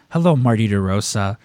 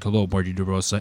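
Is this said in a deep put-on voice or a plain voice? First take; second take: plain; deep put-on. First: It is said in an ordinary speaking voice. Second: It is said in a deep, gravelly put-on voice.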